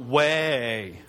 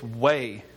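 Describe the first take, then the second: First: The word is drawn out into two syllables. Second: The word is said as one short syllable. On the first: The speaker calls it wrong. "not two" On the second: The speaker calls it right. "It's one syllable"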